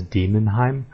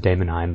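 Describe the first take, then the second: First: "Demonheim" with a plain "dee" start; correct way. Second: "Daemonheim" with a long "day" start; wrong way. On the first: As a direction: say "Demonheim" as DEE-mon-heim. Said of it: "the actual pronunciation is Demonheim". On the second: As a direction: say "Daemonheim" as DAY-mon-heim. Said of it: "I always pronounce it Daemonheim". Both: Shown as a demonstration.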